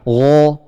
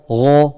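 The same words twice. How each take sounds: The two takes are said the same way.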